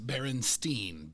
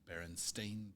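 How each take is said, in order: First: The last syllable is said like 'stine'. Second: The last syllable is said like 'stain'. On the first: This is the commonly remembered form. The speaker calls it wrong. "Almost everybody pronounces it and remembers it, it seems" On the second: This is the actual form. The speaker calls it right. "But it is S T A I N"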